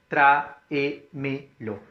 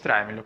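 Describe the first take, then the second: First: TRÁEMELO split into tra-e-me-lo; tráemelo slowly, one syllable at a time. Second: Said in the usual way. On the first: Shown as a demonstration. Teacher showing the class the word with enclitics, syllable by syllable.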